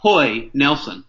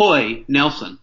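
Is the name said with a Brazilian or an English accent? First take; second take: Brazilian; Brazilian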